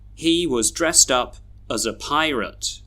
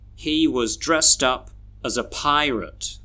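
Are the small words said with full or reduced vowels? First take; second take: reduced; reduced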